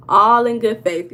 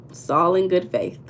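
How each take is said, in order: First: Louder repeat. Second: Said in the usual way. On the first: Shown as a demonstration.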